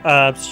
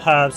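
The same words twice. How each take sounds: First: It is said with a US pronunciation. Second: It is said with a UK pronunciation.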